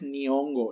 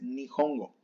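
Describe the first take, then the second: First: The middle h sound is left out. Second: The middle h sound is clearly heard. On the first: The speaker calls it wrong. "No es nihongo" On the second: The speaker calls it right. "es nihongo"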